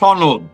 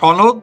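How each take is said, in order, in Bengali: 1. এটি আরবি-ঘেঁষা, দাফতরিক উচ্চারণে বলা হচ্ছে। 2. এটি সাধারণ বাংলা উচ্চারণে বলা হচ্ছে।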